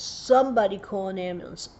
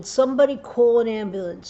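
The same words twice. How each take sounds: First: A milder repeat of the cry; a hint of a retold yell; repeated call. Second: Desperate retold yell, louder; screaming for help. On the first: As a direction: call out again, less force. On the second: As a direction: shout it across the pool. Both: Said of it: "And I'm screaming".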